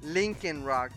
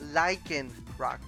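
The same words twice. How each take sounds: First: The first part sounds like 'Lincoln'. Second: The first part does not sound like 'Lincoln'. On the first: The speaker calls it wrong. "Like Lincoln the statue, Lincoln the president, I used to call him Lycanroc" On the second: The speaker calls it right. "And it's actually Lycanroc"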